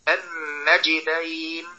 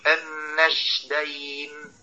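First: The consonant before the d is a clear j. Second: The consonant before the d sounds like sh. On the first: The speaker calls it right. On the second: The speaker calls it wrong.

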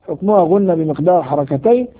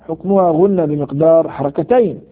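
The two takes are said the same way.

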